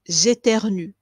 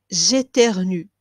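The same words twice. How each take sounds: The two takes are said the same way.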